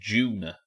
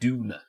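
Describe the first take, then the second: First: It starts with a J-like sound. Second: It starts with a plain D sound.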